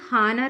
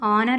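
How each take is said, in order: First: The word starts with an h sound. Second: The word starts with a vowel sound. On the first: The speaker calls it wrong. "ఇది హానర్ అని చదవకూడదు" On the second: The speaker calls it right. "ఆనర్ అని చదవాలి"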